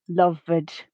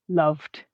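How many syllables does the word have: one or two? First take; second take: two; one. First: The ending adds a vowel; it is two syllables. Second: The ending adds no syllable; it is one syllable. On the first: The speaker calls it wrong. "this both adds a syllable and a vowel sound" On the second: The speaker calls it right. "the base form has the same number of syllables as the past tense ed form"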